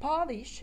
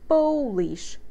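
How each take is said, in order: First: The first vowel sounds like the vowel in father. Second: The first vowel is an oh sound. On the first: To make a surface shine. "We have a sound like in father" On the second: From Poland. "O sound here"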